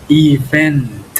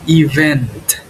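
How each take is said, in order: No difference in how they are said.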